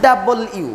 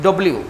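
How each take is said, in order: First: ডাবল ইউ as "double-you", fully sounded; careful, complete ডাবল ইউ; correct W. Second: ডব্লিউ run together as "dobliu"; casual local-style ডব্লিউ; mistaken W. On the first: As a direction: keep both parts of ডাবল ইউ distinct. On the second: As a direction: squash it into ডব্লিউ with an o vowel. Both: Shown as a demonstration. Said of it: "এটা ভুল".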